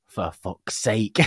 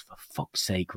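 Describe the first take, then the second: First: Put-on slow, drawn-out "For fuck's sake" like a small child; slow child imitation. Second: Muttered curse. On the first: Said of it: "he hears from the bedroom door". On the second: Retold or imitated. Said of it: "and I go".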